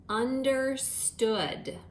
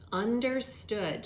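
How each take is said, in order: First: Understood, stretched very slowly; slow dictation. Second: Said in the usual way. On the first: Shown as a demonstration. Teacher dictating understood to second graders, very slow. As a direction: draw out understood for the class. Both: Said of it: "compound word that you're going to write is".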